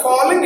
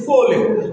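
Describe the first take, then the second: First: "falling" with an open "aw" vowel; mispronounced "falling", mouth more open on the first vowel; wrong vowel. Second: "falling" with a rounded "o" vowel; corrected "falling", first syllable like "foe". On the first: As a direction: say "falling" as "fawling", as a mistake. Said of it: "It's not a falling". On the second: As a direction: say "falling" as "foh-ling", lips rounded. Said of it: "it is a falling". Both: Shown as a demonstration.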